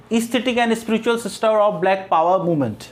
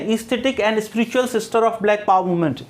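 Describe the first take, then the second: No difference in how they are said.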